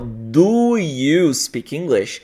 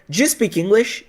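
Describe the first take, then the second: First: 'Do' and 'you' are said as separate words. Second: 'Do' and 'you' blend into one short syllable. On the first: "dessa forma é, separada" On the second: "eles usam a fala conectada"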